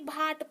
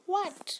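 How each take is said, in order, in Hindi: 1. यह शब्द bh ध्वनि से शुरू होता है। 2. यह शब्द w ध्वनि से शुरू होता है।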